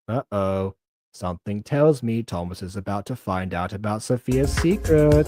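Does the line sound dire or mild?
dire. The line is read in a dire, alarming way. The situation seems far more serious. The speaker calls it wrong. "I don't know why I read the line like that, it made it sound a lot worse"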